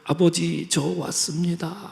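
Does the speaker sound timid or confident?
timid. It is said timidly and hesitantly.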